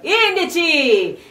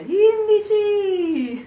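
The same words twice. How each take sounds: First: The word is called out loudly and fully. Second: The word is echoed back more softly. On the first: Someone calls out from the mountain top. "arrivi in alto" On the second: The mountain answers back as an echo. "e ti risponde"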